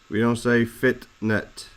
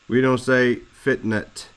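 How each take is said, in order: Both takes have the same delivery.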